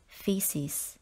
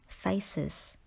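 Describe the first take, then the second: First: The first vowel sounds like 'fee'. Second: The first vowel sounds like 'fay'. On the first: The speaker calls it right. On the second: The speaker calls it wrong.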